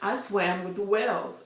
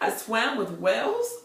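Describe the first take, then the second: First: It is said plainly as a calm statement. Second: It is said as a doubtful question. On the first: A simple report of what happened. "I said simply" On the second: Doubting whether it was a sane thing to do. "I questioned my sanity"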